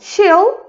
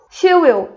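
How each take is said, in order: First: The two words merge into one short syllable. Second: Both words are said separately and in full.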